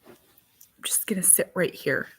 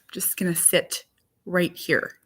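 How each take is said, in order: First: 1 whisper. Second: Said in the usual way. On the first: Real, not acted. Whispered aside.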